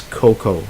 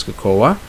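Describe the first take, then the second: First: Cocoa said as koh-koh, two syllables; cocoa with silent A; correct cocoa. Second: Cocoa said as co-co-a, three syllables; mock Filipino cocoa; imitated mispronunciation. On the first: Shown as a demonstration. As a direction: drop the final A in cocoa. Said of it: "You actually don't pronounce the A". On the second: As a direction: sound the A at the end of cocoa. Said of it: "the Filipinos pronounce it as cocoa".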